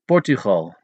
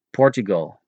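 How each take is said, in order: First: Portugal with a throaty Dutch g and a long o at the end; Dutch pronunciation. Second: Portugal with a hard English g; English pronunciation. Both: Shown as a demonstration.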